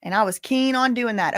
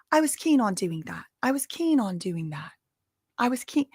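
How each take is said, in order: First: Said in the usual way. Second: A rough attempt at a British accent on "keen"; "keen" in a put-on British accent, practising it; mock British accent. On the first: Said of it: "I gotta work on that accent". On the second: Host practises the assistant's "keen" in a British accent. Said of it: "I gotta get in my Hermione Granger".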